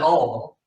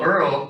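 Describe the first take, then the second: First: The word sounds like 'all'. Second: The word sounds like 'earl'. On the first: "some people say all" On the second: "people will say things in the South much differently"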